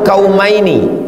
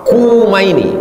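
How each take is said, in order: First: The first vowel is an open 'a' sound. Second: The first vowel is a rounded 'u' sound. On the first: "bi fathil kaf, kafnya baris atas, ka" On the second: "wa dhammiha, boleh dibaca dhammah"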